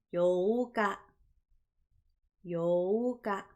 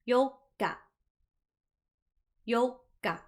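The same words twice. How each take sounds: First: Yoka with a drawn out o, yooka; long o sound. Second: Yoka said with a short stop inside, yo-ka; pause in the middle. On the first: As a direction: yoka con la o larga, yooka. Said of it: "One of them is long". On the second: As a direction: yoka con una breve pausa, yo-ka. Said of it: "One of them has a pause". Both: Shown as a demonstration.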